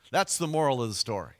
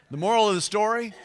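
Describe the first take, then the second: First: Said in the usual way. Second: Higher, louder, fast punchline lead-in; emphatic announcement. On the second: Shown as a demonstration. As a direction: announce it with a big excited lift. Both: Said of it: "I got a little ahead of myself there".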